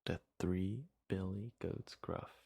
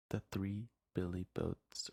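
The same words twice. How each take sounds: First: "goats" said clearly as goats, slow and careful; corrected title. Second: "boats" said instead of goats, a quick misreading; slip of the tongue. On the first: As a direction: reread "The three billy goats gruff" slowly, fixing the word. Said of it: "my bad". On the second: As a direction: read "The three billy boats" with boats as a plain slip. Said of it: "or not boats, my bad". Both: Real, not acted.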